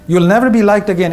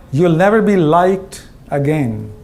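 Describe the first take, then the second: First: Said in the usual way. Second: "never" drawn out, slow and low; slow, heavy warning. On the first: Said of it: "repeated line". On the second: Shown as a demonstration. CEO warning the audience, slow and grave. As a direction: let it land slowly like bad news. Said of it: "This one hurts".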